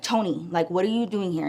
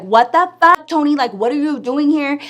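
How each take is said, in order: First: Low, soft, unbothered question; very calm. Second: Raised, higher voice, mock outrage; acted confrontation. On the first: Retold or imitated. Friend addresses her baby's father, very calm. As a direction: ask it quietly, keeping things level. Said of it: "It was very calm". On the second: Friend confronts her baby's father, acted indignant.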